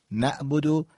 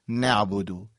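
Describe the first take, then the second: First: نعبدو said without the ayn; ayn dropped. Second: نعبدو with a clear throaty ayn; ayn pronounced. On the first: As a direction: skip the ayn sound in نعبدو. (نعبدو بدون حرف عین) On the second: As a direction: bring out the Arabic ayn in نعبدو. (نعبدو با حرف عین) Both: Shown as a demonstration.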